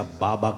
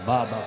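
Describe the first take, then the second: First: Said in the usual way. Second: Baba repeated alone, louder with a falling punch; emphatic repeat. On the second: Acted. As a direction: hit Baba hard and let it drop.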